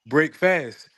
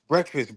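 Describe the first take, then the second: First: It is split into two separate full words. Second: It is run together as one blended word. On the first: Ending the fast kept during sleep. "Nobody never say what it really say" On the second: The usual name for the morning meal. "everybody be like"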